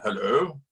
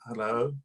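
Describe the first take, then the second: First: Lightly imitated posh phone "Hello", lifting at the end; a hint of a posh caller saying hello. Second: Said in the usual way. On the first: Prime minister calling the campaigner on holiday, lightly mimicked posh voice. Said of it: "there's this posh voice on the other end". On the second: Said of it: "And I was like".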